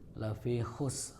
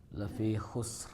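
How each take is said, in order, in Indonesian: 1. Huruf terakhir hanya disentuh ringan. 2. Huruf terakhir hanya disentuh ringan.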